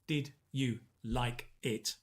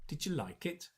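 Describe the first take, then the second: First: Each word is said separately and clearly. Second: The words run together like one word. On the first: The speaker calls it wrong. "instead of saying" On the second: The speaker calls it right. "It's a chunk. You're pronouncing it almost like one sound"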